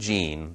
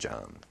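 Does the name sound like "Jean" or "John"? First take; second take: Jean; John. First: The name is said with an ee vowel. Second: The name is said with an ah vowel. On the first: It is the usual reading of the spelling, a girl's name. "So the girl's name" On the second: It is the English reading of the French spelling, a boy's name. "The boy's name"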